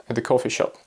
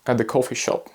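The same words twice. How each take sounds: The two takes are said the same way.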